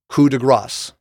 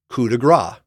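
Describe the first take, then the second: First: The last word ends with an audible s sound. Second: The last word ends without an s sound. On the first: It means a strike of mercy. The speaker calls it right. "It is coup de grâce, which means strike of mercy" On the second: It means a strike of fat. The speaker calls it wrong. "most Americans mispronounce it as coup de grâce, which actually means strike of fat"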